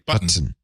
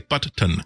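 First: The word is said smoothly without a break. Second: There is an audible break between the two t's. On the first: "I just say button" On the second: "they put an audible pause between the two T's"

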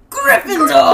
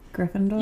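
First: The word is said loudly, with great energy. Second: The word is said plainly, without much energy. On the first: The speaker calls it right. "that was insane" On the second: The speaker calls it wrong. "I said it wrong"

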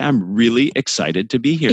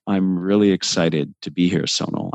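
First: It is said with lively, emotive emphasis. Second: It is said in a flat, monotone voice.

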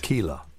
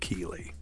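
First: The name ends with an 'ah' sound. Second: The name ends with an 'ee' sound. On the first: "Because Y's become A's. So they'll say Keela" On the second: "instead of Keely"

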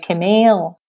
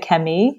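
First: It is pronounced the English way, with an l. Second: It is pronounced the French way, without an l. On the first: "and I say Camille" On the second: "they say Camille"

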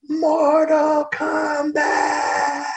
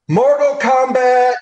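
First: It is shouted with great force and intensity. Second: It is shouted casually with little force. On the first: It carries the weight of the world's problems. The speaker calls it right. "get hit in the gut with all the problems of the entire world" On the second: It is said without real feeling behind it. The speaker calls it wrong. "I yelled, Mortal Kombat, you know, just something"

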